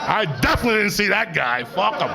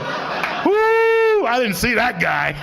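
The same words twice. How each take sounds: First: High, laughing, stress on definitely; laughing repeat. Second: Very high, loud yelling whoop; giddy shout. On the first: Stoned driver laughing off the near-miss, laughing. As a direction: chuckle through definitely. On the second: Stoned driver yelling after near-miss, giddy shout. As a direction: holler it out the car window. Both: Acted.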